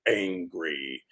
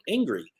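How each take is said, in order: First: The word is said in an ominous, dramatic tone. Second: The word is said in an ordinary, neutral tone. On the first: "It's like angry" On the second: "it doesn't say it in a normal tone, like angry"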